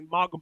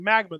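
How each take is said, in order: First: It is said with a Japanese pronunciation. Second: It is said with an English pronunciation. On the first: "they say magma" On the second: "instead of saying magma"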